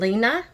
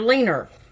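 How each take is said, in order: First: The name ends in a plain vowel, no r. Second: The name ends with an added r sound. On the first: This is her actual name. The speaker calls it right. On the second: This is how local people said it. The speaker calls it wrong.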